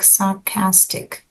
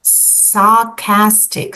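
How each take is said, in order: First: Said in the usual way. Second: Sarcastic said slowly, each syllable sar-cas-tic clear; slowly spelled out. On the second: Shown as a demonstration. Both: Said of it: "about that word".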